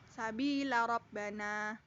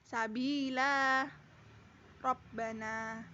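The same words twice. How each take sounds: First: The vowel after the l is short. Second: The vowel after the l is long. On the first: "wasal lam pendek" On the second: "Ketika waqaf lam panjang"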